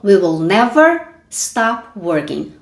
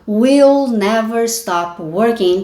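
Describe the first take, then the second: First: We and will are said as two separate words. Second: We and will are contracted into one syllable. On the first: "Ele não reduziu we will para will e falou we will" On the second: "Poderia ter falado will never stop working"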